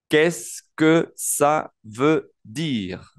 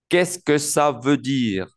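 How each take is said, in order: First: Very slow, each word separated by pauses. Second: Words linked in one measured phrase; careful French model without breaks between words; joined-up model. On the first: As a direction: model «Qu'est-ce que ça veut dire» slowly for learners. Teacher models a new French phrase. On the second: Teacher repeats the phrase joined up. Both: Shown as a demonstration.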